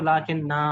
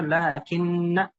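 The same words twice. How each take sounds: First: लाकिन्ना with the final alif held long, "laakinnaa"; stopping at लाकिन्ना, draw out its last vowel; pausal reading. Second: लाकिन्न said short as "laakinna" with no long final vowel; carrying on without a stop, लाकिन्न stays clipped at the end; connected reading. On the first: Teacher to Quran students, showing the pause form of लाकिन्ना. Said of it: "अगर वक्फ करना है तो". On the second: Teacher to Quran students, showing the form of लाकिन्न without a pause. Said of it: "वक्फ नहीं है तो". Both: Shown as a demonstration.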